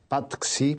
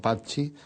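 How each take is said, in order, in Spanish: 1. El nombre se lee siguiendo las reglas de ortografía española. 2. El nombre se dice con su pronunciación nativa. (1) "te pronunciábamos mal, decíamos Patxi, porque leíamos como se suele leer en el español" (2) "y no Patxi"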